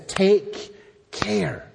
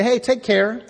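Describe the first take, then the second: First: Slow, weighty caution with a falling end; solemn warning. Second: High, rising friendly send-off; casual farewell. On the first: God warning his people in verse eleven, solemn. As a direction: give each word room as a warning. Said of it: "So it's a warning that's here". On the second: Preacher mimicking an everyday goodbye, casual and lilting. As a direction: toss it off like a cheery goodbye. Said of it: "sometimes we say". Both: Acted.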